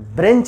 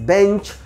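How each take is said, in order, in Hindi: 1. पहले B के बाद R की ध्वनि आती है। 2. पहले B के बाद R की ध्वनि नहीं आती। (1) "ब्रेंच नहीं पढ़ेंगे" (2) "दैट इज बेंच"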